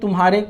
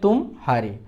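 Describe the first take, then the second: First: It is said as one word without pause. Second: A short pause separates 'tum' and 'haare'. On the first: It means 'your'. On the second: It means 'you lost'.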